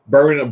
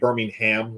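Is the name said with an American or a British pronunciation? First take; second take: British; American. First: It is said with a British pronunciation. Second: It is said with an American pronunciation. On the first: The speaker calls it right. "I would like to pronounce it the correct way" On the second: The speaker calls it wrong. "Americans we we tend to say Birmingham"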